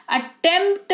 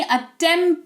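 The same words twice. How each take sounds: First: अटेम्प्ट drawn out with P sounded; wrong pronunciation. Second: अटेम्प्ट as "attemt", P silent; correct pronunciation. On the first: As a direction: say अटेम्प्ट slowly, articulating P before T. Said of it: "अटेम्प्ट नहीं". (गलत उच्चारण, अटेम्प्ट में प बोलकर) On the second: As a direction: say अटेम्प्ट without the P. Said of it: "अटेम्प्ट पढ़ते हैं". (सही उच्चारण, अटेम्प्ट में प मौन) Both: Shown as a demonstration.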